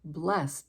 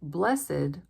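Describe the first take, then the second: First: The ending is a plain 't' sound. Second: The ending is an extra 'id' syllable. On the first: It is used as a verb. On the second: It is used as an adjective.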